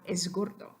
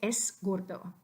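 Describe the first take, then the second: First: The word es ends with a voiced z sound. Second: The word es ends with a voiceless s sound. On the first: The speaker calls it right. "change that S to the sound Z" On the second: The speaker calls it wrong. "we really don't want to say es gordo"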